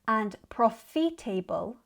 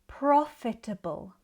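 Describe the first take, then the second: First: The ending sounds like the full word 'table'. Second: The ending is short and reduced, not 'table'. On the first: The speaker calls it wrong. "like they end in the word table" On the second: The speaker calls it right. "In British English, we would say"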